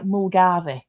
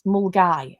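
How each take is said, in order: First: The name ends with a 'vee' sound. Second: The name ends with a 'guy' sound. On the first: The speaker calls it wrong. "if you say it like it's spelt" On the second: The speaker calls it right. "I think is how you pronounce it"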